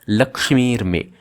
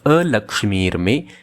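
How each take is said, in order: First: No vowel is heard before Lakshmir. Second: A short 'a' vowel is heard before Lakshmir. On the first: Fortune is driven away. "they are reciting it as Lakshmir Me" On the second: Misfortune is driven away. "instead of a Lakshmir Me"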